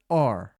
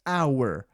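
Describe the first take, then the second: First: Said quickly, reduced to one short vowel. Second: Said slowly, with a full two-part vowel. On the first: "acelerando um pouquinho fica or" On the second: "falando mais devagar"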